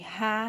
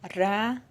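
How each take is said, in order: First: The R has the strong word-initial sound. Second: The R has the soft single-R sound. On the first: "No início da palavra, o R, ele pode ter som de Rá" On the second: "No meio da palavra, quando é um R só, aí ele já muda o som, vai para Rá"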